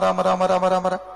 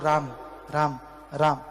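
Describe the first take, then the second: First: The words are repeated very fast. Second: The words are repeated slowly and calmly.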